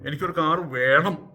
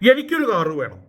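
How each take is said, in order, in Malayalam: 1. Stress അവസാന വാക്കിലാണ്. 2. Stress ആദ്യ വാക്കിലാണ്. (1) "അവിടെ വേണം എന്നുള്ളതിനാണ് അവിടെ സ്ട്രെസ് കൊടുക്കുന്നത്" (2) "ബാക്കി ആർക്കും എന്ത് കൊടുത്താലും എനിക്കൊരു കാറ് വേണം"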